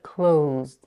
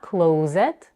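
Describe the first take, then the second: First: The final d follows the z with no vowel. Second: An extra vowel is added before the final d. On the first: The speaker calls it right. "but closed" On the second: The speaker calls it wrong. "make sure not to add a vowel between the z and the d. It's not closed"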